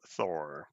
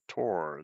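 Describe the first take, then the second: First: The word starts with a TH sound. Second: The word starts with a plain T sound.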